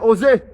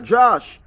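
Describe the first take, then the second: First: The name is said the Spanish way. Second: The name is read as it looks in spelling. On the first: The speaker calls it right. "if you don't live among Hispanics them, you go know" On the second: The speaker calls it wrong. "When I go think say the spelling J O S E now Josh"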